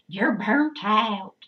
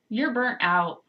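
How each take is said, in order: First: It is said in a Southern American accent. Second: It is said in the speaker's usual accent.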